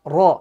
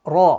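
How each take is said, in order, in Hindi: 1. R को हल्के से ट्रिल किया जाता है, कुछ टैप के साथ। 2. R को हल्के से ट्रिल किया जाता है, कुछ टैप के साथ।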